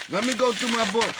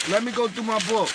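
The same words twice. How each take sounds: The two takes are said the same way.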